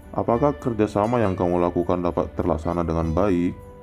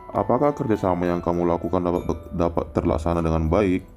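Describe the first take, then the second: The two takes are said the same way.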